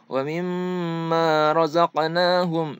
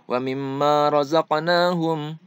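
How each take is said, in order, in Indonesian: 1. Bunyi nasal m ditahan panjang. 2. Bunyi nasal m dipotong pendek. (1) "Harusnya ... ada penahanan dulu" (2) "Jadi tidak boleh seperti ini"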